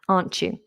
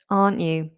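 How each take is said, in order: First: The t and y merge into a ch sound. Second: The t is dropped with no ch sound. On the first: "We have a C H sound within that" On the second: "You could also drop the plosive altogether"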